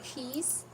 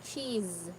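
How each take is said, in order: First: The word ends with a hissing s sound. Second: The word ends with a buzzing z sound. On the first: The speaker calls it wrong. "Not cheese" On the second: The speaker calls it right. "but cheese. It sounds like Z"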